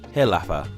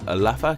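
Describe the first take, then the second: First: The word begins with a breathy h sound. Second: The word begins directly with a vowel.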